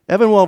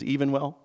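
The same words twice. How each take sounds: First: The name begins with a short 'ev' sound. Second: The name begins with the word 'even'.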